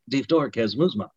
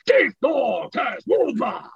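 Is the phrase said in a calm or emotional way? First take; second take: calm; emotional. First: It is said calmly and without emotion. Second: It is said with strong emotion.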